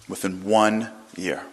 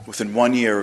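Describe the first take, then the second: First: "Within one year" slowly, with ONE drawn out; slow emphatic repeat. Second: Said in the usual way. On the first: Real, not acted. Preacher driving home the miracle, slow emphatic "Within one year". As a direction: let "one" hang before "year".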